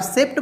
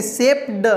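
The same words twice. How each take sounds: First: "सेप्ट" ending quickly in T; ending read as T. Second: "सेप्ड" with a separate voiced D; ending read as D. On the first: Teacher shows the easier reading, "सेप्ट" with final T. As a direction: say "सेप्ट" with a T after P. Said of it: "सेप्ट बोलते हैं तो तुरंत बोल लेते हैं". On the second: Teacher has learners try the difficult "सेप्ड", final D. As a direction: try "सेप्ड" with D sounded after P. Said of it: "बोलना थोड़ा सा मुश्किल होता है". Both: Shown as a demonstration.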